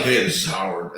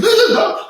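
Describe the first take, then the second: First: Said in the usual way. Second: Very high, loud announcer boom; Howard Finkel impression. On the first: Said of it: "it wasn't like". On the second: How the announcer really greeted him, loud announcer boom. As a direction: announce your own name like a main event. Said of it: "he talked like this all the time".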